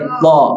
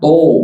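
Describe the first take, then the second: First: The vowel is said with a wide open mouth. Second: The vowel is said with pursed, rounded lips. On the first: The speaker calls it right. "Mangap. Buka mulut dengan sempurna" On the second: The speaker calls it wrong. "Jangan to. To nggak boleh ya"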